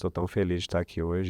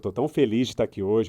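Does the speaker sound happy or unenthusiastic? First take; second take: unenthusiastic; happy. First: The voice sounds flat and unenthusiastic. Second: The voice sounds lively and happy. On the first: The words claim happiness but no happiness is shown. The speaker calls it wrong. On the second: The happiness in the words is actually shown. The speaker calls it right.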